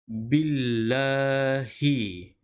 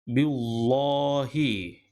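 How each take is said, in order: First: The L sound is light and thin. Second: The L sound is heavy and thick. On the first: The speaker calls it right. "maka dibaca dengan billahi" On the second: The speaker calls it wrong. "Tak boleh baca billahi. Lallahi tebal"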